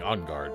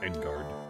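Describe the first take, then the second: First: The name is said in a French-like way. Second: The name is said in an American way. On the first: The speaker calls it right. "Should say, be saying on guard" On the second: The speaker calls it wrong. "It's the most American way of pronouncing it"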